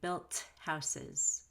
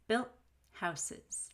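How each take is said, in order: First: The T in built is released before houses. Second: The T in built is held before houses. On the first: The speaker calls it wrong. "So I don't say" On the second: The speaker calls it right.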